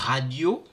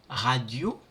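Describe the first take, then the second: No difference in how they are said.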